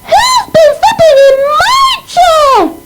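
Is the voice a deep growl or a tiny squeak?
tiny squeak. It is said in a tiny squeaky voice.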